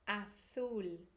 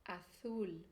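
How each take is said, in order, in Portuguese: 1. O z soa como th do inglês. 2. O z soa como th do inglês.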